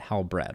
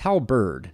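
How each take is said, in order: First: The r sound comes before the vowel: hal-bred. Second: The r sound comes after the vowel: hal-berd. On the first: The speaker calls it wrong. "not Halbred" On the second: The speaker calls it right. "It's Halberd"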